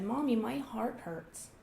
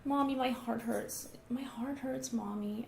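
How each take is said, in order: First: Put-on slow, pitiful child's complaint; a mock-hurt little boy, drawn out; faking child. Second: Put-on slow, whimpering little-boy voice, the repeat nearly whispered; faking child. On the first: Son telling Mommy his heart hurts, mock pitiful. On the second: Son telling Mommy his heart hurts, whimpering. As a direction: play up a pitiful, drawn-out complaint. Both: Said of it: "he was kind of faking it".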